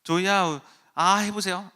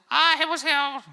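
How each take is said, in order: First: Said in the usual way. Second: Very high, loud mechanical echo of a toy; 말하는 선인장 흉내. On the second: Retold or imitated. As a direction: squeal it back like the cactus toy. (선인장 인형처럼 아주 높고 크게 따라하기) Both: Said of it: "저것이 자꾸 날 따라하니까".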